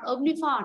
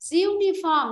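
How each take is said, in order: First: The word begins with an 'om' sound. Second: The word begins with a 'yoo' sound. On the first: The speaker calls it wrong. "not omniform" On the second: The speaker calls it right. "Uniform, not omniform"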